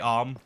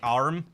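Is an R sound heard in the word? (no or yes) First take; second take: no; yes. First: No R sound is pronounced after the vowel. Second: The R sound is pronounced after the vowel. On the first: "But now we just say arm, like without that" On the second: "using the letter R, like arm"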